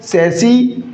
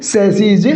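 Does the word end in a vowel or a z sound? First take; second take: vowel; z sound. First: The word ends in a vowel sound. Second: The word ends in a z sound. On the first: It names one frame. "यानी कि ये क्या है साथियों" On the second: It names more than one frame. "उच्चारण सैसीज होगा"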